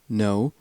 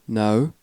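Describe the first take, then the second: First: The word is said in a General American accent. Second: The word is said in a British accent. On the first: "General American no" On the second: "British no"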